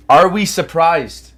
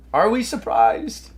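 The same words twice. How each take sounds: First: "Are we surprised?" slow, with a falling end on "surprised"; falling tune. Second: "Are we surprised?" slow, higher, rising on "surprised"; rising tune. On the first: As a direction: drag out "Are we surprised?" and let it drop. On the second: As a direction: lift "Are we surprised?" into a mock question. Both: Acted. Mocking gross price action.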